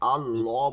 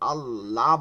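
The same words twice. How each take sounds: First: The l sound is heavy and thick. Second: The l sound is light and thin. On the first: The speaker calls it right. "আল্লাহ বলতে হবে। ... পুর বা মোটা বলে" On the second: The speaker calls it wrong. "আল্লাহ বলা যাবে না"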